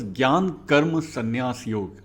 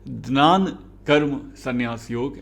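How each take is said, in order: First: The first word begins with a 'gy' sound. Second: The first word begins with a 'gn' sound.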